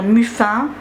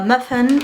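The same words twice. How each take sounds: First: The word has a French pronunciation. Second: The word has an English pronunciation. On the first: "au lieu de dire" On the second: "de dire euh, muffin ... moi j'utilise les termes en anglais"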